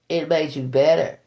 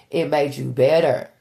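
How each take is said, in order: Both takes have the same delivery.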